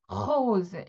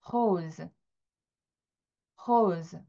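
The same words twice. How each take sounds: First: Rose with an exaggerated throaty r; overdone r. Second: Rose said hosɯ with a throaty r; French rose. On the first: Teacher shows how not to say rose. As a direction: push too much air on rose. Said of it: "이런 식으로 오버하지 않고 그냥 rose". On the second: Teacher models French rose to learners. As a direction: start rose with breathy air from the throat. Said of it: "발음은 이렇게 나요". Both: Shown as a demonstration.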